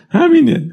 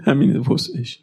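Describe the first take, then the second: First: Higher and louder, hammering it home; همینه cried out high and loud; emphatic. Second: Said in the usual way. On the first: Real, not acted. Preacher stressing a point.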